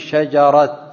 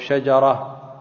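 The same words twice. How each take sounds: First: The word ends with a t sound. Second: The word ends with an h sound. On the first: The speaker calls it wrong. "على غير الأفصح بالتاء المفتوحة" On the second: The speaker calls it right. "الوقف عليه بالهاء، إبدال التاء المربوطة هاء"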